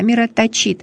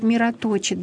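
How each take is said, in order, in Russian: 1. Ударение падает на последний слог. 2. Ударение падает на предпоследний слог. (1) "Ударение на последний слог" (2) "Так хочется сказать"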